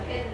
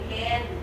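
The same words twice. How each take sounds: First: The word is short, weak and unstressed. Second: The word is full, long and stressed. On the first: The speaker calls it right. "Can lang siya" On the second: The speaker calls it wrong. "hindi can"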